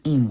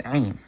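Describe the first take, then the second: First: Im starting straight on the vowel; silent aleph. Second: Ain as Hebrew im with an Arabic ayin first; ain, ayin sounded at the start; pronounced Ayin. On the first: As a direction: say im as a simple "eem". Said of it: "with an aleph". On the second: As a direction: say ain opening on the throat consonant. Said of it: "with an ain". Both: Shown as a demonstration.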